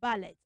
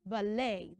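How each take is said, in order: First: "ballet" as BA-LET; wrong ET ending. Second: "ballet" drawn out as buh-LAY; AY ending. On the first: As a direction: end "ballet" on a short ET. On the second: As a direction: slowly end "ballet" on AY, no T. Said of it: "we pronounce B A L L E T as". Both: Shown as a demonstration.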